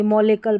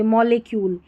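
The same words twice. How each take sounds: First: मॉलिकल with a short "kal" ending; wrong pronunciation. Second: मॉलिक्यूल with a "kyool" ending; correct pronunciation. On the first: Teacher showing the misreading to avoid, मॉलिकल ending in "kal". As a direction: say मॉलिकल, no "y" glide before the final l. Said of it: "मॉलिकल नहीं पढ़ेंगे". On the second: Teacher showing learners how to read it, मॉलिक्यूल ending in "kyool". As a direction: say मॉलिक्यूल, long "yoo" in the last syllable. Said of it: "मॉलिक्यूल पढ़ेंगे". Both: Shown as a demonstration.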